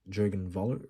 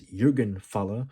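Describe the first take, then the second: First: The name is said with English pronunciation. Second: The name is said with German pronunciation.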